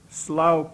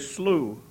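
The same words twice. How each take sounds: First: Slough is said the way the poet said it. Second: Slough is said the North Dakota way. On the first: This is how the poet said the name. "I know she pronounced it that way" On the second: This is how people in North Dakota say it. "I'm from North Dakota, and we'd say Slough"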